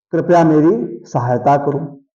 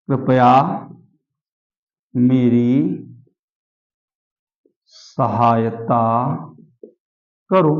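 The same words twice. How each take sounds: First: Said in the usual way. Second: Lower, drawn-out words with long gaps; word-by-word dictation. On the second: Shown as a demonstration. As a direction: dictate slowly, waiting after every word. (धीरे-धीरे, एक-एक शब्द लिखवाते हुए)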